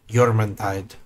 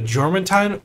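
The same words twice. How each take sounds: First: The name is said in an Austrian-style accent. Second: The name is said in a plain accent.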